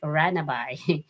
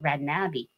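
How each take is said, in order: First: The name ends with an 'eye' sound. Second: The name ends with an 'ee' sound. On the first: The speaker calls it wrong. "some people read it like Ranabay" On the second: The speaker calls it right. "the correct uh, pronunciation of my name is Ranabi"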